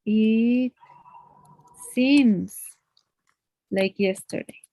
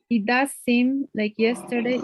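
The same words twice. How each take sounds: First: Said in the usual way. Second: DOES given the main stress; emphasis on DOES. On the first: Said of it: "Usually we will say". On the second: Shown as a demonstration. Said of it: "auxiliary verb to emphasize".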